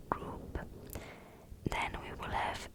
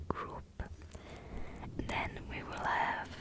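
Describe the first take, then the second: No difference in how they are said.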